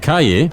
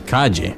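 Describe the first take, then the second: First: The double L sounds like an English 'y'. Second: The double L sounds like a 'j' sound. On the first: "we pronounce two L's as a Y sound" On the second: "it's pronounced like a ja"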